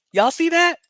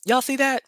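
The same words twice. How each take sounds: First: Higher, louder, laughing excitement; more excited. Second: High, loud pointing out; excited. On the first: Showing viewers the rat clip again, more excited. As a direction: insist with mounting glee. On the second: Showing viewers the rat clip, excited. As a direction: point it out eagerly. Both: Real, not acted.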